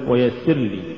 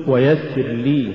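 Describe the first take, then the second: First: ويسر لي as one word, falling; weak لي tacked onto ويسر; words run together. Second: ويسر, then a full rising لي; separate words. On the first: Teacher shows the mistake, ويسر لي run together. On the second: Teacher models correct recitation, ويسر apart from rising لي. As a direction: give لي its own stress after ويسر. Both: Shown as a demonstration. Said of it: "ولا تقل".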